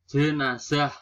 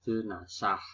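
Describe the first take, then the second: First: "Jenazah" with a buzzing z, punched louder; standard pronunciation. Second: "jenazah" with s for z; nonstandard pronunciation. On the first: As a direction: say "Jenazah" firmly with z. (ucapkan "Jenazah" dengan z) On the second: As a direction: say "jenazah" as je-na-sah, quieter. (ucapkan "jenazah" menjadi jenasah) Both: Shown as a demonstration.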